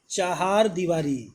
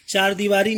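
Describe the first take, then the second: First: चहार दीवारी with "cha-haar"; correct word form. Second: चार दीवारी with a plain "chaar"; wrong word form. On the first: (सही रूप, चहार दीवारी में "हा" बोलें) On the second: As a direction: say चार दीवारी without any "ha". (गलत रूप, चार दीवारी में सीधा "चार") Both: Shown as a demonstration. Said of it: "चार दीवारी नहीं होती है".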